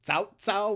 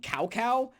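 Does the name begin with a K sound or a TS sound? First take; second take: TS; K. First: The name begins with a TS sound. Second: The name begins with a hard K sound. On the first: It follows the Chinese pronunciation. The speaker calls it right. "sort of like the T S sound" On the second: It follows the English spelling. The speaker calls it wrong. "they called him Cao Cao because his name is spelled C A O C A O, and that is not right"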